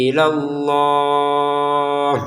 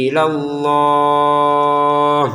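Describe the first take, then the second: The two takes are said the same way.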